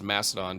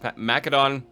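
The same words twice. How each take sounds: First: The middle consonant is an s sound. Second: The middle consonant is a k sound. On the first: It follows the common English pronunciation. "just to make some of you happy" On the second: It follows the ancient Greek pronunciation. "not a hard S sound behind Macedon"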